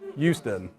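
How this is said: The H at the start sounds like a Y.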